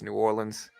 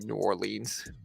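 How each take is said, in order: First: It is said the Louisiana local way. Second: It is said the outsider, non-local way.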